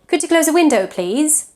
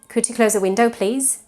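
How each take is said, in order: First: The pitch moves up and down throughout. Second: The pitch stays flat and level throughout. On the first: The request sounds polite. The speaker calls it right. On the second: The request sounds rude. The speaker calls it wrong. "I'm using the same tone. But in English, if you use this tone, you sound rude"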